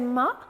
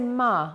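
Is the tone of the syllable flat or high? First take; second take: high; flat. First: The syllable is said on a high tone. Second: The syllable is said on a flat tone. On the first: It means horse. "with a high tone" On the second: It means mother. "with a flat tone"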